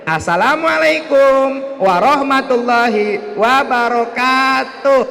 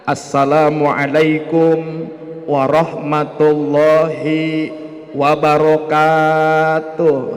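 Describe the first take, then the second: First: It imitates a kindergarten teacher's greeting. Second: It imitates an ustadz's greeting.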